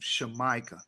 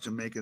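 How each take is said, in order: First: The word begins with an sh sound. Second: The word begins with a j sound. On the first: The speaker calls it right. "That's how you're supposed to say it" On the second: The speaker calls it wrong. "is not supposed to be pronounced Jamaica"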